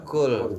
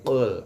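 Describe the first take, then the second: First: It starts with a plain front k sound. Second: It starts with a deep throat q sound. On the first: The speaker calls it wrong. "bukan kaf, bukan kul" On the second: The speaker calls it right. "tapi qul di sini"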